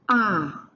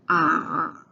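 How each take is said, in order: First: It is said with the fourth tone. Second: It is said with the third tone.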